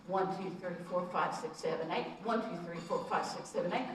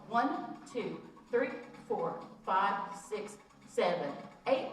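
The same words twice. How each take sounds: First: Quicker counting to eight; faster count. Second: Slow, spaced counting to eight. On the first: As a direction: count it through faster, keeping the beat. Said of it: "See, you speed it up". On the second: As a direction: count it out slowly, one beat at a time. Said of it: "Let's do this slow". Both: Shown as a demonstration.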